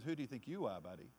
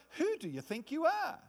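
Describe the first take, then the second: First: Sassy comeback. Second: Higher, challenging sneer on who; accusing taunt. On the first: Believer turning the devil's question back, hand on hip. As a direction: lower and softer, hand-on-hip cool retort. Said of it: "put your hand on your own hip and turn around and says". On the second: Devil challenging the believer's authority, high sneer. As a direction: put them in their place. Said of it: "It's like". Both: Pretend.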